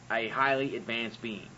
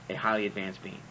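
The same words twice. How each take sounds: First: Said in the usual way. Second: Lower, softer, mocking echo of highly; sarcastic repeat. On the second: Shown as a demonstration. Mocking the idea of an all-knowing God, sarcastic. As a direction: drop the voice and sneer at highly advanced.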